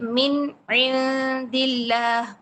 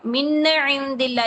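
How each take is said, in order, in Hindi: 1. n की आवाज़ ख़त्म होती है, फिर हल्का सा विराम आता है। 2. n की आवाज़ खिंचती है और अगले शब्द में जुड़ जाती है। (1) "मिन नून की आवाज़ ख़त्म करें, फिर आइन पर जाएँ" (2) "ये हिल रहा है"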